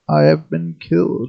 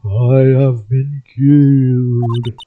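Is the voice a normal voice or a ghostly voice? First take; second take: normal; ghostly. First: It is said in a normal voice. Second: It is said in a spooky ghost voice.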